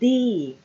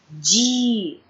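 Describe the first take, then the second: First: The d is clean with no hiss. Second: The d is hissed like j. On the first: The speaker calls it right. "Nós queremos um som limpo" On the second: The speaker calls it wrong. "a gente acaba falando ti, di"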